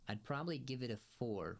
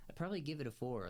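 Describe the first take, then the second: First: Said in the usual way. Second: Rattled off fast and a bit higher, I'd probably give it a four; fast, offhand restatement of the score; quick repeat. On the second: Shown as a demonstration.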